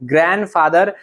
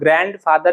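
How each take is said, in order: First: The d sound in grand is silent. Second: The d sound in grand is pronounced. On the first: The speaker calls it right. "उसमें भी डी silent होता है" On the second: The speaker calls it wrong. "वो ग्रैंड father या ग्रैंड mother नहीं होता"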